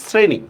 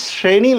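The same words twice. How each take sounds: First: শ্রেণী opened on a hissed s, not sh; spoken form with s. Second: শ্রেণী opened on a palatal sh; spelling pronunciation. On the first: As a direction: say শ্রেণী as "sreni", with a dental s. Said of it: "উচ্চারণ লিখতেছি কিন্তু". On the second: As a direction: say শ্রেণী as spelt, "shreni", with sh. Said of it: "বানানের শ্রেণী লিখলেও". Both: Shown as a demonstration.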